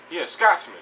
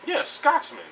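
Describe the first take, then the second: First: Said in the usual way. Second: High-pitched, hammed-up "Yeah, Scotsman."; high mock Scotsman. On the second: Shown as a demonstration. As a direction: toss off "Scotsman" in a much higher voice, half mocking.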